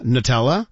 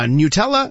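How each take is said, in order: First: Nutella as nuh-TELL-a, short first vowel; first-syllable variant. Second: Nutella as NEW-tella, with a y glide; first-syllable variant. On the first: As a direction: say Nutella lower, with a reduced nuh at the start. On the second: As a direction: say Nutella as nyoo-TELL-a, rising at the end. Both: Shown as a demonstration. Host compares disputed first syllables, first-syllable variant. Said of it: "Nobody agrees on the first syllable".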